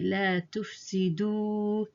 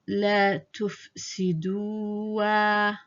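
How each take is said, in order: First: The word ends on a 'u' sound. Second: The word ends with an added 'a' sound. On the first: The speaker calls it right. "the alif is ignored ... We say la tufsidu" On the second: The speaker calls it wrong. "we don't say here la tufsidua"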